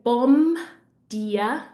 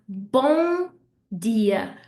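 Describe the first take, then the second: First: A clear M sound closes the first word. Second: The first vowel is nasal with no M. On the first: The speaker calls it wrong. "with a M" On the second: The speaker calls it right. "where I'm really pushing the nose out"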